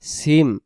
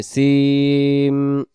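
First: Said in the usual way. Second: সিম with its sound held very long; drawn-out সিম. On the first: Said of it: "বাংলাতে যেমন সিম আমরা পড়ি". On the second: Shown as a demonstration. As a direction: stretch সিম out slowly, humming on the final m. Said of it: "টান দিয়ে সিম বলতে হবে". (সিম লম্বা টান দিয়ে উচ্চারণ)

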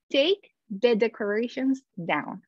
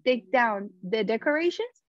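First: "take the decorations down" said slowly, word by word; slow demo. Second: Said in the usual way. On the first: Shown as a demonstration. Teacher slowly showing the split verb to students. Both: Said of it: "En vez de decir".

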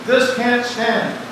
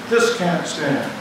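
The two takes are said the same way.

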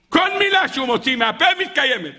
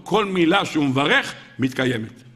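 First: High, exclaimed decree; emphatic proclamation. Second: Said in the usual way. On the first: A narrator's reading. Preacher repeats the Baal Shem Tov's decree, emphatic proclamation. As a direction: repeat it in wonder with pitch raised.

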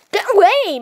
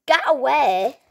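First: High, loud lady-like get away; lady-like shriek. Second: Said in the usual way. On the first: Acted. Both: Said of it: "Why do you sound like a lady?".

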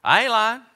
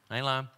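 First: Insisting shout. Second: Said in the usual way. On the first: Real, not acted. Insists to congregation.

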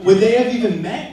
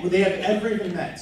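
First: Louder and higher, rising on they; loud, high rhetorical rise on they; big rhetorical question. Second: Fast, falling on they; fast, falling restatement of the question; quick restatement. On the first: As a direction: throw the question out to the room, rising. Rhetorical question in toast, repeated. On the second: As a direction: rattle it off again, settling down. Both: Real, not acted.

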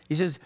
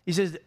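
No difference in how they are said.

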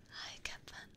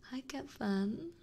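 First: Very soft, breath-only hello; hushed little repeat of a greeting; whispered greeting. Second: Slow, higher coo; cooing, lingering hello; fond greeting. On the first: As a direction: whisper it fondly. Same greeting repeated, much softer. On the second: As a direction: draw the hello out sweetly with a rising end. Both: Real, not acted.

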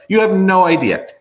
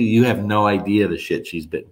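First: Higher and louder, hitting You; emphatic repeat. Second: Said in the usual way. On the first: Real, not acted. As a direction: press You hard on the repeat.

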